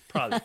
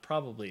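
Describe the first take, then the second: First: The word is shortened to two syllables, like prolly. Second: The word is said in full, all three syllables. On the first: "P-R-O-L-L-Y. It's the Georgia pronunciation" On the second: "is not probably"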